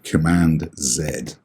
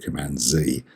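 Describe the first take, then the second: First: Z is said 'zed', the British way. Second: Z is said 'zee', the American way.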